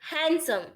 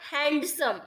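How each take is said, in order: First: The d sound is left out. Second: The d sound is clearly pronounced. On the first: The speaker calls it right. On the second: The speaker calls it wrong.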